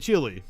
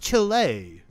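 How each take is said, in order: First: The name is said with an English pronunciation. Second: The name is said with a Spanish pronunciation. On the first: The speaker calls it wrong. "my girlfriend corrected me all the time when I would say Chile" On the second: The speaker calls it right. "it's Chile"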